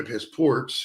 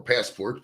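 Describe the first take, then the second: First: "passport" with the weight shifted onto PORT; "passport" stressed on its second syllable; stress on wrong syllable. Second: Said in the usual way. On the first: Real, not acted. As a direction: misplace the stress, pass-PORT. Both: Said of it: "put the wrong emphasis on the wrong syllable".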